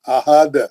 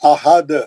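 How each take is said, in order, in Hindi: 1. शब्द एक उछलते, गूंजते अंतिम 'd' पर रुकता है। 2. शब्द एक उछलते, गूंजते अंतिम 'd' पर रुकता है।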